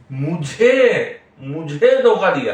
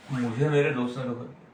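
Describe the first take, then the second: First: मुझे punched loud and drawn out slowly; stress on मुझे. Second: Softer, even line with no word pushed; sad, no stress. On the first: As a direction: hit मुझे hard, ego in the voice. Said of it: "मुझे" पे ज्यादा जोर है". ("मुझे" पर ज़ोर, धीमा और ऊँचा) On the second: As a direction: say मुझे मेरे दोस्त ने धोखा दिया plainly hurt, नो ज़ोर on मुझे. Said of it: "सैडनेस हो गया". (दुखी, बिना ज़ोर के धीमी आवाज़) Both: Shown as a demonstration.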